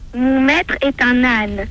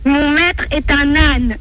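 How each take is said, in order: First: It is said in a small, quiet voice. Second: It is said louder than before.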